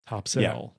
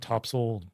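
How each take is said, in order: First: The second syllable sounds like 'sail'. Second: The second syllable sounds like 'soil'. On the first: The speaker is not from the area. "Topsail, you're not from there" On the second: The speaker is from the area. "Topsoil is local"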